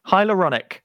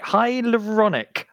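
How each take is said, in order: First: Said in the usual way. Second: "Hyaluronic" sounded out slowly, higher pitch; careful, drawn-out attempt at "Hyaluronic"; struggling to pronounce. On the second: Shown as a demonstration. Host practising a hard word, saying "Hyaluronic" slowly and carefully. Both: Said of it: "I can't even say it".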